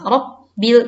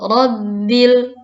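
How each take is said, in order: First: The double b breaks with a p-like stop. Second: The double b is smoothly joined together. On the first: The speaker calls it wrong. "dilatinkan R A P B. Jadi ada P B" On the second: The speaker calls it right. "kita sambungkan seperti itu di Latinnya B B"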